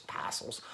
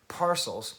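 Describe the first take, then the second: First: Bad Australian accent. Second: Said in the usual way. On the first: Shown as a demonstration. Vlogger re-saying the band's name mid-question, bad Australian accent. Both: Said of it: "that bad Australian accent".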